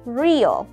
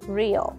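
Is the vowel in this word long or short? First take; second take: long; short. First: The vowel is held long. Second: The vowel is kept short. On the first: "Cách đọc thứ nhất là dài" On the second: "cách đọc thứ hai là ngắn"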